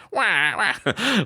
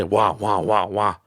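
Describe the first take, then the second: First: High rising crybaby wah wah; hammed-up baby cry; mock crying. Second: Put-on wah wah like a whiny baby; mock crybaby wah; mock whining. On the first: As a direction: wail it like a baby. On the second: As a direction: fake baby whine. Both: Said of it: "it sounds like I'm just whining and crying".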